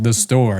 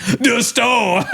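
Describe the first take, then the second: First: Said in the usual way. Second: High, exaggerated echo of the answer; mimicking comic's outburst. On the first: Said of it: "I just answered". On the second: Comic repeating an audience member's answer, high mocking exclamation. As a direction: parrot it back high in mock astonishment. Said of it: "And he's like".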